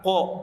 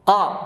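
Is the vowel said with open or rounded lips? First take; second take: rounded; open. First: The vowel is said with rounded, pushed-out lips. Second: The vowel is said with open, unrounded lips. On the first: The speaker calls it wrong. "bukan ko" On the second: The speaker calls it right. "terbuka tanpa monyong"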